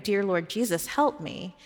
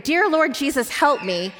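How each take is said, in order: First: Said in the usual way. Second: Higher, urgent plea from a nightmare; retold cry for help. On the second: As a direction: call out a prayer, mildly acted. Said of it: "she cried out to him".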